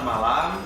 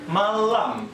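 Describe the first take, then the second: First: The middle L sound is short and normal. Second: The middle L sound is held noticeably long.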